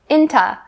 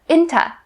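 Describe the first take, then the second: First: The t stays but the last vowel is reduced. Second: The same.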